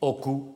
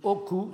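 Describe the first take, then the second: First: The word is said on a low tone. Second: The word is said on a mid tone. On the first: It means a wound. "sur un ton bas" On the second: It means the thigh. "sur un ton moyen"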